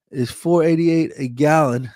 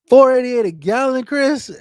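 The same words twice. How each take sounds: First: Said in the usual way. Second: Higher, louder, repeating the price in disbelief; can't believe the price, ask it back; shocked disbelief. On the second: Real, not acted.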